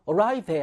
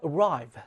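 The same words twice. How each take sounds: First: Arrive with an extra "-eh" syllable at the end; final e wrongly sounded. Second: Said in the usual way. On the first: Shown as a demonstration. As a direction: mispronounce arrive as "a-rai-veh", voicing the silent e. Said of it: "arrive 아니잖아요". (arrive 끝의 e를 '어라이베'처럼 잘못 발음) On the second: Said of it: "이 이가 발음되지 않죠".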